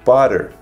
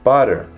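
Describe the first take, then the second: First: The words blend into one reduced word. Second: The words blend into one reduced word.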